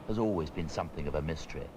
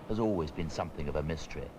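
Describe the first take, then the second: Both takes have the same delivery.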